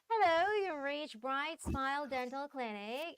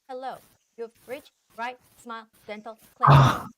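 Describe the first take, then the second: First: The words flow together smoothly without breaks. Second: The words are separated with choppy breaks. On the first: The speaker calls it right. "it's gotta be like all linked" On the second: The speaker calls it wrong. "Your reading was very choppy"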